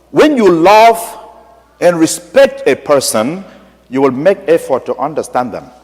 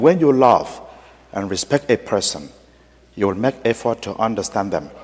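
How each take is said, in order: First: Lifted, slow, heartfelt appeal; sincere heart-to-heart; earnest plea. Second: Soft, moved repetition; a hushed echo of the priest's words; quiet echo. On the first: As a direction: plead gently with the bishop. Priest's plea to bishop. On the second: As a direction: say it back softly, as if touched to tears. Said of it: "repeated after him". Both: Retold or imitated.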